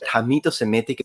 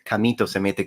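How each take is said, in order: First: The word begins with an H sound. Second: The word begins with a K sound.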